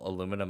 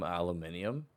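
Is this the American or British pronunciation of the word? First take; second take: American; British. First: It is said the American way, four syllables. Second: It is said the British way, five syllables.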